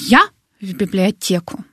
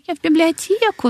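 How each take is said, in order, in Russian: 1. Звучит гордо и уверенно. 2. Звучит смущённо и виновато. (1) "сейчас ты говоришь такой" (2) "А еще 10 лет назад такой"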